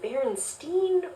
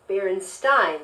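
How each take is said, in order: First: The ending does not sound like Frankenstein's. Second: The ending sounds like Frankenstein's.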